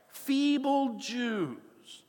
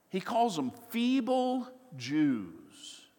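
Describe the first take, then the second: First: Feeble Jews stretched very slowly and high, with scorn; mocking stress on Feeble. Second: Said in the usual way. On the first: Shown as a demonstration.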